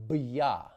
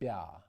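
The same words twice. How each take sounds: First: A hard B is followed by a y-glide. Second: The B consonant itself is softened. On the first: The speaker calls it wrong. "Under no circumstances do we want to say" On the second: The speaker calls it right. "we need to soften the consonant itself"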